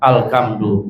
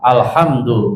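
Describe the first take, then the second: First: The middle consonant is a k sound. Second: The middle consonant is a breathy h sound. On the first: The speaker calls it wrong. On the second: The speaker calls it right.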